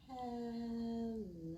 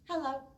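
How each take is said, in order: First: It is said slowly. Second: It is said quickly.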